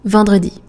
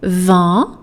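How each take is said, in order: First: It is said at full, normal speed. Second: It is said slowly, syllable by syllable.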